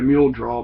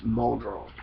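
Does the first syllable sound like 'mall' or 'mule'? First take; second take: mule; mall. First: The first syllable sounds like 'mule'. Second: The first syllable sounds like 'mall'. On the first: It is read from the map by outsiders. "what people would look on the map" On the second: It is how locals say it. "around here it's mall draw"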